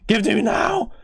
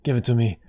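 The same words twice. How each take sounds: First: High, loud demand; demanding shout. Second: Said in the usual way. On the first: Real, not acted. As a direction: shout it like you crave it. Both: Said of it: "that sounded weird".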